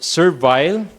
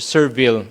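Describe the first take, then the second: First: It is said with a British pronunciation. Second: It is said with an American pronunciation. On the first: "if it's uh, British" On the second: "if it's American pronunciation"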